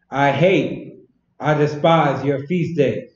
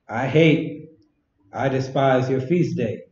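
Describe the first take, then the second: First: It is read loudly and aggressively. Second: It is read in a calm, plain voice.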